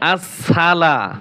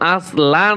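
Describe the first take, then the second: First: The s sound is doubled and held. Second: The s sound is short and single. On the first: The speaker calls it right. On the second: The speaker calls it wrong. "আসলা নয়"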